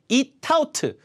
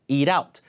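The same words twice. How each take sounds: First: The t is clear and the words are separated. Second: The t is flapped, sounding like a light l. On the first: The speaker calls it wrong. "이렇게 발음되는 게 아니라" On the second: The speaker calls it right. "이게 리을처럼 바뀐다는 얘기예요"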